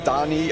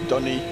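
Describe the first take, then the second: First: The first vowel sounds like the one in 'hot'. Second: The first vowel sounds like the one in 'hut'. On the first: The speaker calls it wrong. "I don't say Donny" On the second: The speaker calls it right. "I say Dunny, like that"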